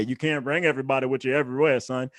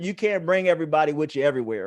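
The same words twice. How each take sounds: First: Lower, quicker fatherly lecture voice; imitating daddy. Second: Said in the usual way. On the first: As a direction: drop into his dad's lecturing tone, brisk. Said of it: "I sound like my daddy every day". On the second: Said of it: "I sound like my daddy".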